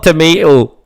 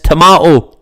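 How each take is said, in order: First: It is said with the American pronunciation. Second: It is said with the British pronunciation. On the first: The speaker calls it wrong. "not tomato. Get it right" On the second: The speaker calls it right. "And it's tomato"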